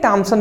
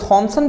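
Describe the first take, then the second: First: The name begins with a plain hard t sound. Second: The name begins with an aspirated th sound. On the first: This is a form adapted for local convenience. "अपने suitable के लिए हम कह देते हैं टॉमसन" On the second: This is the name's original form. "थॉमसन भी सही है"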